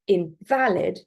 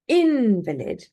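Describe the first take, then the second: First: The stress is on the second syllable. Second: The stress is on the first syllable. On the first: Something is not legally recognized or usable. "with a stress on the second syllable" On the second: A person is weakened by illness or injury. "the stress is on the first syllable"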